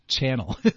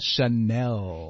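First: It is said like the English word channel. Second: It is said with a French pronunciation. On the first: It sounds like a TV channel. The speaker calls it wrong. "很多的人说 Channel" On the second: It sounds elegant and upscale. The speaker calls it right. "你 Chanel 你才有那个法语的感觉"

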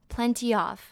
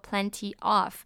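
First: The two words are run together. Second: The two words are said separately. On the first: The speaker calls it right. "我们会把它连过去变成 plenty of" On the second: The speaker calls it wrong. "我们不会说 plenty of"

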